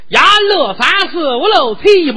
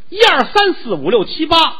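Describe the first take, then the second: First: The numbers are counted in a local dialect. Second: The numbers are counted in standard Mandarin.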